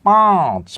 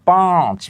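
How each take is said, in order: Both takes have the same delivery.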